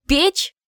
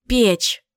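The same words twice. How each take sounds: First: Печь? with a sharp high rising tune; puzzled question. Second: Said in the usual way. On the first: A narrator's reading. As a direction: ask Печь? rising steeply at the end. Repeating the word as a question.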